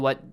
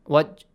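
First: The final j stops abruptly without a bounce. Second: The final j is released with a slight bounce. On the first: The speaker calls it wrong. "do not say waj. Do not stop here" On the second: The speaker calls it right. "Just bounce it a little"

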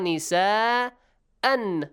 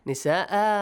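First: The word ends with an n sound. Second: The word ends on a long a vowel. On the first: The reading continues past this word. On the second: The reader stops at this word.

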